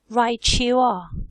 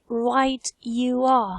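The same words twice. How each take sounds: First: The t and y blend into a ch sound. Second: The t and y sounds stay separate. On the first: "in general what people say is" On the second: "Do you say right you are? ... That is a possibility"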